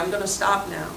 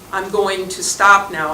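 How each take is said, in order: First: 'Going to' is squeezed together into one word. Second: Each word of 'going to' is said separately. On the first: "those two words get compressed together, slid together" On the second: "if I was very careful"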